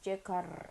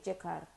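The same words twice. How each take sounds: First: It is said carefully with the final R heard. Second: It is said fast with the final R dropped. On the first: This is the careful, proper form. "how to do the proper pronunciation is" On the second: This is how locals say it casually. "we just say Jekar and just basically cut it off there"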